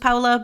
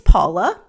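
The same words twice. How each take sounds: First: The name is said with a non-American pronunciation. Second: The name is said with an American pronunciation. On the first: "saying her name like this" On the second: "the American spelling and pronunciation"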